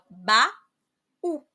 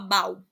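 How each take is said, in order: First: The vowels are split into two syllables. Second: The vowels merge into one syllable. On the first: The speaker calls it right. "a gente fala ba-u" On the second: The speaker calls it wrong. "A gente não fala bau"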